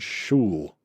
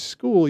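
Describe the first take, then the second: First: The word begins with an 'sh' sound. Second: The word begins with an 'sk' sound. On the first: Someone else misread the word. The speaker calls it wrong. "he literally said shul" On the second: This is how the word should sound. The speaker calls it right. "you know that word is school"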